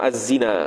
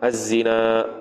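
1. Vokal akhir pendek tanpa hamzah di akhir. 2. Vokal akhir panjang dan diakhiri dengan hamzah. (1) "Kalau qasar mana tak ada alif, tak ada hamzah, maksudnya az-zina gitu" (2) "Mad ni mana hamzah az-zina, baca dengan harakat"

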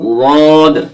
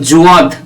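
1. এটি জিভের কিনারা থেকে আসা পার্শ্বীয় ধ্বনি দিয়ে শুরু হয়। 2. এটি z ধ্বনি দিয়ে শুরু হয়। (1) "জীবের কিনারাটা মাড়ির দাঁতের গোড়ার সাথে লাগিয়ে দেবেন এবং উচ্চারণ করবেন" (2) "জুয়াদও হবে না"

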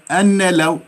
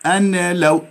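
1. تُنطق النون منفصلةً قبل اللام. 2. تُنطق النون منفصلةً قبل اللام.

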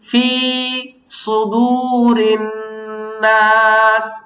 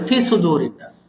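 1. fi এবং sudu, দুটোরই স্বর দীর্ঘ করা হয়েছে। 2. fi-এর স্বরটি ছোট, দীর্ঘ করা হয়নি। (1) "এখানে ফিতে এবং সুদুতে 2 জায়গায় টান আছে" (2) "2-1 হলো ফি টানটা দেয় না"

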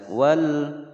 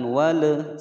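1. L akhir ditahan dengan halus tanpa dipantulkan. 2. L akhir dipantulkan dengan lepasan.

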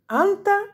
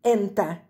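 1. Слово начинается с гласного a. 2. Слово начинается с гласного e. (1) "Иногда сами арабы вместо «и» и «э» могут сказать «а»" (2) "Также можно говорить вместо «и» – «э»"

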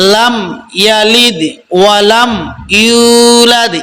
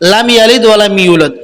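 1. yulad-এর yu স্বরধ্বনিটি বেশিক্ষণ টানা হয়। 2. yulad-এর yu স্বরধ্বনিটি হ্রস্ব। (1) "ইউ একালিফ টান হবে" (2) "আমরা এভাবে পড়বো না"

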